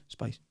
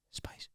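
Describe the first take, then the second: First: Low sly murmur of one word; whispered-ish taunt from the side; muttered tease. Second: Breathy whisper of one word; ghostly taunting whisper; whispered tease. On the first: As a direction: drop it quietly, like a sneaky tease. Mate teasing from the side. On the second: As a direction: whisper it creepily behind his head. Mate teasing behind his head. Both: Retold or imitated.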